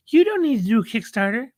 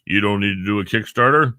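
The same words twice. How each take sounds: First: "You don't need to do a Kickstarter" much higher, quick; high voiced investor. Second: Said in the usual way. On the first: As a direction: toss it off in a high other voice. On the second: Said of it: "and says".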